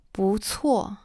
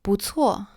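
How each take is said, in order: First: Whispered repeat. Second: Said in the usual way. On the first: Shown as a demonstration. Teacher whispers "不错" again for students. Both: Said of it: "repeated demo, second whispered".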